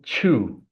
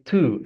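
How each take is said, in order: First: The word begins with a ch sound. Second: The word begins with a plain t sound. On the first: The speaker calls it wrong. "Most people say chew, but I would like to warn everybody that this is not a good pronunciation" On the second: The speaker calls it right. "we're gonna say two and not chew"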